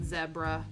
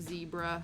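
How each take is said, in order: First: The word is said the British way. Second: The word is said the American way. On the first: "I think they pronounce it zebra" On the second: "instead of zebra"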